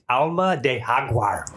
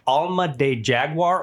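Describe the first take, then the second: First: The name is said with a Spanish pronunciation. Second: The name is said with an English pronunciation.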